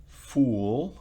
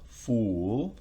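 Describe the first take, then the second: No difference in how they are said.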